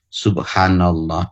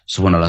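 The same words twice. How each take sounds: First: It is said slowly and with feeling. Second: It is said quickly and mechanically.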